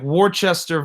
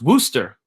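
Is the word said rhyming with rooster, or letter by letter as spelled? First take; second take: as spelled; rhymes with rooster. First: The word is said following its spelling. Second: The word is said rhyming with rooster. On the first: The speaker calls it wrong. "The name sounds like Worcester versus Georgia, but it's actually not pronounced that way" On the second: The speaker calls it right. "It is pronounced Worcester, like a rooster, but with a W"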